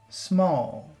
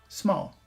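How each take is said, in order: First: The word is said with strong, lengthened emphasis. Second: The word is said plainly without extra emphasis. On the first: "Focus small" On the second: "Normal small"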